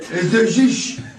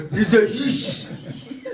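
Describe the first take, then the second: First: High, laughing mock French accent; hammed-up French accent. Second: Put-on slow, sultry French accent with a laugh; drawn-out seductive French accent; sexy French accent. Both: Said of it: "it sounds sexy".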